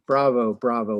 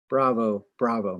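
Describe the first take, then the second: First: Loud cheer from the crowd. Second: Said in the usual way. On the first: Acted. Revellers cheer the chairman's speech, loudly. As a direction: call out bravo to the hall. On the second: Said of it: "many speaking".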